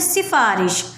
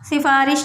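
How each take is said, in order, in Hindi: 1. पहली s ध्वनि ज़ोरदार है। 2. पहली s ध्वनि नरम है। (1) "सीन को हम थोड़ा सा ज़ोर देकर बोलते हैं" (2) "सिफारिश नहीं बोलेंगे"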